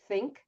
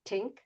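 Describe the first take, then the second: First: The word begins with a soft 'th' sound. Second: The word begins with a hard 't' sound. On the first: "the T H" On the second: "the way that they're saying it"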